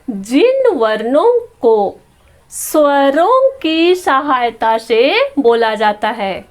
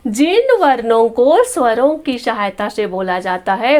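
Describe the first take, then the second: First: Slow, deliberate reading with stretched words. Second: Said in the usual way. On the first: Shown as a demonstration. Teacher reads the consonant definition to pupils, slow read-out. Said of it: "पढ़ करके बताती हूँ".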